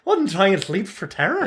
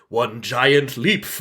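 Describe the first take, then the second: First: It is said in a special put-on voice. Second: It is said in a plain, ordinary voice. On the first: The speaker calls it right. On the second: The speaker calls it wrong.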